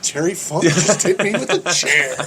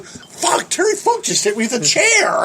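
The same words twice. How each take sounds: First: Retold amused disbelief. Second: High-pitched mock astonishment; retold shocked exclamation. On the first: Teller realises who hit him, laughing mild disbelief. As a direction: let it sink in, half laughing. Same sentence retold as second reaction. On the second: Teller reacts to the chair hit, high shocked exclamation. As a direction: blurt it high, as if just hit.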